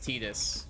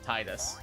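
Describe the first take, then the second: First: The first syllable does not sound like 'tide'. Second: The first syllable sounds like 'tide'. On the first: This is the official pronunciation. "It's actually pronounced Tidus" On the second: This is the pronunciation fans prefer. "so we call it Tidus"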